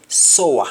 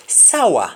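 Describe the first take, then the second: First: "sour" said SOH-wa, with O; Jamaican pronunciation. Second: "Sour" said SAH-wa, with open "ow"; English-style "Sour", open "ah" vowel; English pronunciation. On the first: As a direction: say "sour" the Patois way, as soa. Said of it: "will be sour". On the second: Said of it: "in English". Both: Shown as a demonstration.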